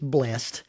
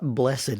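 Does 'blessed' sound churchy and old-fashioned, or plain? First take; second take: plain; churchy. First: The word is said in a plain, everyday way. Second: The word is said in a formal, churchy way. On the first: The speaker calls it right. "it's blessed" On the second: The speaker calls it wrong. "It's not blessed"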